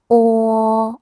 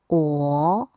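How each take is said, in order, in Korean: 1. 이 음절은 첫 번째 성조로 발음합니다. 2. 이 음절은 두 번째 성조로 발음합니다.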